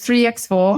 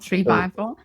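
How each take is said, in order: First: The middle word sounds like 'ex'. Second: The middle word is said as 'by'. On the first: The speaker calls it right. "I always say ex-boyfriend" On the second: The speaker calls it wrong. "not three by four"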